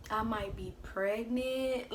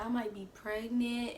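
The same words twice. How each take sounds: First: Slow, halting "I might be pregnant"; slow hesitant confession. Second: Said in the usual way. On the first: Retold or imitated. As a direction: drag out each word like you're scared to say it. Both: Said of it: "I literally said it like that".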